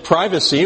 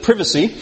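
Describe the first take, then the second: First: Said in the usual way. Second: Privacy with a short i, as in "privet"; higher-pitched British "privacy", first syllable rhyming with "give"; British pronunciation. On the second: Shown as a demonstration. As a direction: say privacy the English way, PRIV-uh-see. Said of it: "as they say in England".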